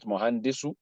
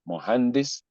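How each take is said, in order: First: The word ends with an added final u vowel. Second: The word ends on a consonant, no final vowel. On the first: The speaker calls it wrong. "not mohandisu" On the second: The speaker calls it right. "because you don't want to pronounce the last vowel"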